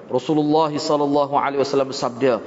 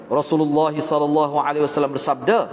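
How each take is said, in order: No difference in how they are said.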